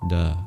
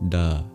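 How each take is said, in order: The two takes are said the same way.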